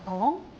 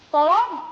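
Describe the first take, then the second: First: It is called out fairly softly. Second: It is called out louder, but not full. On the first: "kurang kenceng" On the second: "kurang kenceng lagi kan?"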